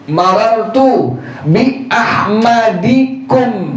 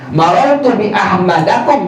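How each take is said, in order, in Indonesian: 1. Vokal sebelum -kum adalah i. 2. Vokal sebelum -kum adalah a. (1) "maka dijarkan dengan kasrah" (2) "Tidak dibaca apa? ... tidak"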